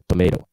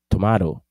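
First: It is said with an American accent. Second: It is said with a British accent. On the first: "In American English, the pronunciation is tomato" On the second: "eles falam inglês mais próximo do inglês da Inglaterra"

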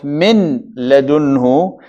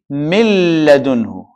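First: The n is pronounced clearly before the l. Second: The n merges into a doubled l sound. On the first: The speaker calls it wrong. "instead of min ladunhu" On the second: The speaker calls it right. "is going to be mil ladunhu. That's why we're going to have double L"

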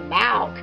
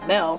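First: The vowel sounds like 'ah'. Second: The vowel sounds like 'ih'. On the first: The speaker calls it wrong. "Dipsy is saying it wrong, like he's saying Malk" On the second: The speaker calls it right. "I normally say milk"

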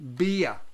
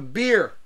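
First: The word is stretched into two syllables. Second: The word is said as one syllable. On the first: The speaker calls it right. "if you want to show it respect, beer. Two syllables" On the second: The speaker calls it wrong. "You can say it that way if you want"

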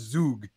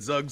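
First: It is said with a Swiss-style pronunciation. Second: It is said with an English-style pronunciation. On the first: The speaker calls it right. "I'm from Switzerland, you have to call this Zug" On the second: The speaker calls it wrong. "we've been pronouncing that wrong"

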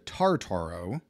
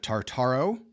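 First: The stress is on the first syllable. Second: The stress is on a later syllable. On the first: The speaker calls it right. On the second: The speaker calls it wrong.

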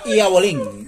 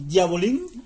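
First: It is said in a coastal Colombian accent. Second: It is said plainly, as it is written. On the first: "Se llama Iabolín. Así" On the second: "Escrito. En sí se llama Diabolín"

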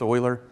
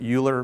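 First: The name begins with an 'oy' sound. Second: The name begins with a 'yoo' sound. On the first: The speaker calls it right. "but it's Euler" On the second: The speaker calls it wrong. "It kind of looks like you could pronounce it Euler"

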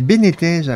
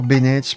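First: The second vowel sounds like 'ee'. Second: The second vowel sounds like 'eh'. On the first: The speaker calls it right. "c'est Benitez" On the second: The speaker calls it wrong. "Pourquoi je dis toujours Benetez, moi?"

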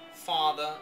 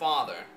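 First: The final R sound is dropped. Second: The final R sound is pronounced.

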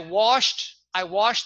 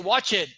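First: It has an sh sound and one syllable. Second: It has a ch sound and an extra syllable. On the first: The speaker calls it right. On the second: The speaker calls it wrong.

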